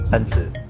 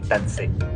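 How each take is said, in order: First: The name ends with an 'oo' vowel. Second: The name ends with an 'ay' vowel. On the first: The speaker calls it right. "The driver corrected me that it's Tansu" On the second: The speaker calls it wrong. "and not really Tansei"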